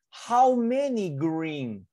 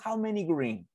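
First: Slow, drawn-out "How many green?"; reading to a toddler. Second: Said in the usual way. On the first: Shown as a demonstration. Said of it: "modelled slowly, then asked again". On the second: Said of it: "asked again at normal pace".

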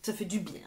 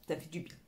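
First: Said in the usual way. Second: Fading echo. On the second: Real, not acted. Repeats phrase, second fades out.

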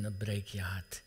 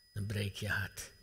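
First: Hushed whisper, lower, much softer; a whispered heartbreak. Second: Quiet, lower, but voiced; a hushed, spoken echo; soft voiced echo. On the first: Acted. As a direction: breathe "dan breek je hart" as an unvoiced whisper. Whispered repeat of a climax. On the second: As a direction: repeat "Dan breek je hart" softly, with voice back in it.

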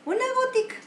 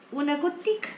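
First: "Una gotica" jumped up much higher in pitch; "Una gotica" squeaked high, stressing a tiny drop; high emphatic repeat. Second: Said in the usual way. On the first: Shown as a demonstration.

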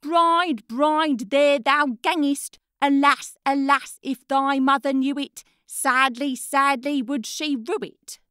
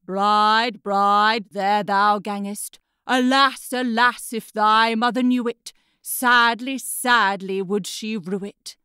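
First: Put-on boy retelling the head's words. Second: Horse's head. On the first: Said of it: "And the head answers". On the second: A narrator's reading. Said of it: "And the head answered".

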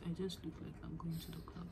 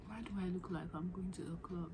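First: Fast breathless whisper under her breath. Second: Said in the usual way. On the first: Real, not acted. To herself about her club-ready look, whispered.

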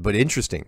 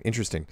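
First: Said in the usual way. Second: "interesting." repeated much softer, drawn down and falling; softer musing echo. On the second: Real, not acted. Mulling over the viewer's submarine story, a quiet echoed "interesting.". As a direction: let the second "interesting." sink to a soft murmur.

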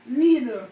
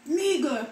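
First: Said in the usual way. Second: "Needle" said as nigel, g for d; Jamaican pronunciation. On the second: Shown as a demonstration. Showing viewers the Jamaican "Needle", nigel.

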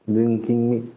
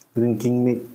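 Both takes have the same delivery.

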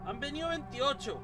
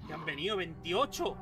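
First: Repetición aguda de incredulidad; repítelo sin creértelo, más agudo. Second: Said in the usual way. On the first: Real, not acted. Repite con incredulidad. (repetido con asombro incrédulo)

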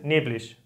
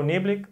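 First: "neblig" ending in a sh sound; regional sh ending. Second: Said in the usual way. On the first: Shown as a demonstration. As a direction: say the final ig of "neblig" as ish. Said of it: "I G se pronuncia como sh". ("neblig" con la ig final pronunciada como sh) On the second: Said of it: "yo digo neblig".

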